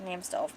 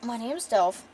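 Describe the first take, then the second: First: Softer, curt "Name's Delph."; a hint of a small, terse warrior; short gruff girl. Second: Said in the usual way. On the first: Shown as a demonstration. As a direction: clip out "Name's Delph." like a blunt little fighter. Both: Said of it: "Delph's really short".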